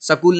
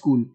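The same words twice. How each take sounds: First: It uses the village pronunciation of the word. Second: It uses the standard pronunciation of the word. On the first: This is how some village people say it. The speaker calls it wrong. "स्कूल नहीं" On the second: This is the proper form. The speaker calls it right. "वो होता है स्कूल"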